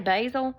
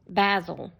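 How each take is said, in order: First: The word is said with an American pronunciation. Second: The word is said with a British pronunciation. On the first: "I say basil" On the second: "them people over there in the U K say"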